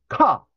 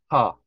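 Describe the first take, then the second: First: The syllable is flicked out with a forceful burst. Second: The syllable is said plainly, without a forceful burst. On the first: The speaker calls it right. "그게 아니라 튕기는 식" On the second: The speaker calls it wrong. "대부분 카 해보세요. 그러면 카, 카 이렇게 하시거든요"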